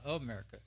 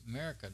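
First: The word is said fully with all syllables. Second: The word is slurred with the first syllable dropped. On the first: The speaker calls it wrong. "It's not America" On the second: The speaker calls it right. "the way we slur our words in Texas"

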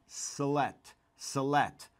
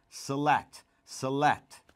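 No difference in how they are said.

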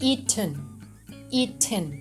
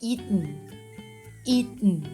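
First: The t sound is fully released. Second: The t sound is held in the throat.

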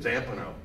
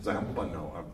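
First: It is said with an American pronunciation. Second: It is said with an Italian pronunciation. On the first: "an American would say it like just like you did" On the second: "Fellini sure of hell would have pronounced it"

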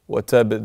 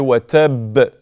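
First: The final b has a light, weak bounce. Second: The final b has a heavy, strong bounce. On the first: "this is a normal qalqala" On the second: "it's a lot stronger"

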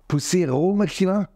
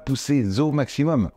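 First: No sound links poussés to au. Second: A z sound links poussés to au. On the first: The speaker calls it wrong. "il en avait pas mis" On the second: The speaker calls it right. "il faut faire une liaison avec un Z"

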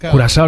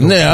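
First: The third consonant is an s sound. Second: The third consonant is a k sound. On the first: This is the correct name of the country and liqueur. "Κουρασάο είναι σωστά" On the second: This is how people used to say it locally. "έτσι το λέγαμε"

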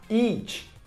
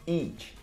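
First: The word is said loudly and forcefully. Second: The word is said at normal volume. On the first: The speaker calls it right. "Mais alto" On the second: The speaker calls it wrong. "Pronuncie aí comigo"

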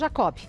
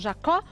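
First: The name ends with a pronounced b sound. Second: The name ends in a vowel, no final b. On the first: The speaker calls it wrong. "Não fala B" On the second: The speaker calls it right. "É Bruno Jacó"

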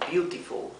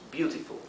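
The two takes are said the same way.

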